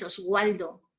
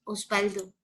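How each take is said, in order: First: "Oswaldo" with the w said like Spanish u; W as a vowel-like U in "Oswaldo"; wrong pronunciation demo. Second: "Osvaldo" pronounced os-BAL-do. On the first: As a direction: say "Oswaldo" with a gliding w sound. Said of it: "No es Oswaldo, es Osvaldo". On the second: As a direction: say "Osvaldo" with a b sound for the v. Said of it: "A veces suena como B". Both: Shown as a demonstration.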